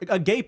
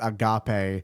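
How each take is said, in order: First: It is said like the English word for open-mouthed. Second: It is said with the Greek pronunciation. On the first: The mouth is hanging open. The speaker calls it wrong. "Agape is a real word and a real term that you know your mouth, a position that your mouth could be in" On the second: Unconditional love. The speaker calls it right. "the Greek word agape for unconditional love"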